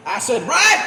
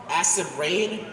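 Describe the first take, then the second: First: Excited shout. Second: Said in the usual way. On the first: Acted. Ranting viewer recognising the video, shouting. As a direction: yell Acid Rain in recognition.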